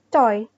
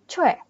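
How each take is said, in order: First: The vowel sounds like 'oy', two separate vowels. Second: The vowel sounds like 'weh', one gliding vowel. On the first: The speaker calls it wrong. "cara baca yang sebenarnya bukan Choi" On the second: The speaker calls it right. "bacanya yang benar kalau secara Hangul yang benar, dia bacanya Choi"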